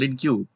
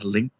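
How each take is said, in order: First: It is said as two syllables, ending in queue. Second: It is said as one syllable, like link. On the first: The speaker calls it wrong. "itu salah" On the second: The speaker calls it right. "sebutan yang benar adalah link"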